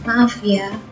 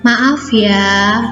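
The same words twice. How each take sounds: First: It is said too quietly to hear well. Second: It is said gently but clearly and audibly. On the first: The speaker calls it wrong. "Apakah anak-anak mendengarnya? Tentu tidak kan?" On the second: The speaker calls it right. "yang lembut, yang sopan dan santun ya... kayak gitu kan kedengaran"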